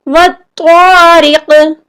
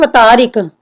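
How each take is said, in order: First: The t sound is doubled and held. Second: The t sound is single and short. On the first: The speaker calls it right. "इसकी सही अदायगी क्या है? वत्तारिक" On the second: The speaker calls it wrong. "अक्सर लोग पढ़ते हैं वतारिक ... जो कि गलत है"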